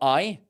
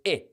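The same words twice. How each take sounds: First: The vowel is long, as in 'live' (adjective). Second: The vowel is short, as in 'live' (verb). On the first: The speaker calls it wrong. "it's not I" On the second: The speaker calls it right. "live is a short vowel. It's I"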